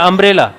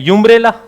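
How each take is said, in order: First: The word begins with a plain vowel sound. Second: The word begins with a 'y' sound. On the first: The speaker calls it right. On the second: The speaker calls it wrong. "अगर कोई इसको यूनिफॉर्म के आधार पर पढ़ेगा यूम्ब्रेला"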